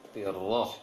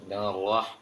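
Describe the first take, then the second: First: The r sound is softened with breath. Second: The r sound opens the mouth abruptly. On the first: The speaker calls it right. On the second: The speaker calls it wrong.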